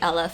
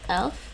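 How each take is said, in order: First: An extra vowel splits it into two syllables. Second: It is said as a single short syllable. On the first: "They would say Aleph. Some some of them" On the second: "but it's really elf"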